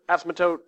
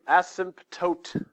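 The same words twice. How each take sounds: First: The word is said quickly, syllables run together. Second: The word is said slowly, syllable by syllable. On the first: "But you say it faster, that's how you say it" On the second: "It looks like it's"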